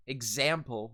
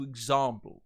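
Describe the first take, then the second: First: "Example" with the A of "cat"; American short A in "Example"; American pronunciation. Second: "example" with a broad "ah", like "ig-ZAHM-ple"; long open A in "example"; High British pronunciation. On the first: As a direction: say "Example" the American way, as "ig-ZAM-ple". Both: Shown as a demonstration. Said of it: "Example will turn into example".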